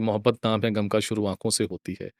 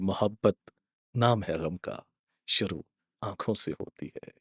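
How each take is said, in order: First: The line runs on without a pause mid-way. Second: There is a pause after 'गम का'. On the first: The speaker calls it wrong. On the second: The speaker calls it right.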